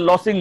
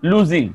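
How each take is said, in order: First: The middle consonant is a hissing s sound. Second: The middle consonant is a buzzing z sound. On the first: The speaker calls it wrong. "লসিং না" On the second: The speaker calls it right.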